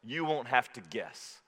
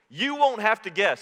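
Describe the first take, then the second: First: Quieter and slower, letting it sink in; soft slow echo. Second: Emphatic assurance. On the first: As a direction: repeat it gently, almost to yourself. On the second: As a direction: say it out to the room with conviction. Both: Real, not acted.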